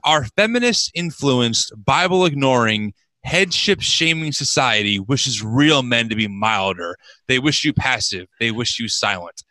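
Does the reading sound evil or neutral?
evil. It is read in a sinister, evil-sounding voice.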